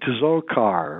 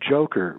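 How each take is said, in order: First: The name begins with a 'ts' sound. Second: The name begins with a 'j' sound. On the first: The speaker calls it wrong. "They're pronouncing it Tzokar or whatever" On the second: The speaker calls it right. "his name is pronounced Joker"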